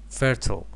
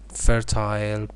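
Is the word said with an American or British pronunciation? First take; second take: American; British. First: It is said with an American pronunciation. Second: It is said with a British pronunciation. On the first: "American pronunciation" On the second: "British pronunciation"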